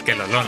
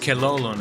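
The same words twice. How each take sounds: First: The name is pronounced the Spanish way. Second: The name is pronounced the English way. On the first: It is said this way for fun. "it is funny to pronounce it in Spanish" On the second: This is the technically correct pronunciation. "technically it would be pronounced"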